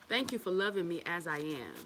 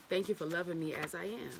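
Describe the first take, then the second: No difference in how they are said.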